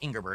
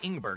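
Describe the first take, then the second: First: The name is said with three syllables. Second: The name is said with two syllables. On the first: The speaker calls it wrong. "not Ingerberg" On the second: The speaker calls it right. "It was Ingberg"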